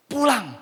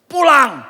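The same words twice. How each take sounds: First: Said in the usual way. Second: Loud, high shout of one word; the Spirit shouting in his ear, a loud high command. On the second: Retold or imitated. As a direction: bark the word home out like an inner shout. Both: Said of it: "Seperti teriak di telinga saya".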